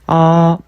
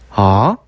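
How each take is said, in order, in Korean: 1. 음이 처음부터 끝까지 높고 평평하게 유지돼요. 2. 음이 중간 높이에서 시작해서 천천히 올라가요. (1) "일성 같은 경우 높고 평평하게" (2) "천천히 올려서 발음합니다"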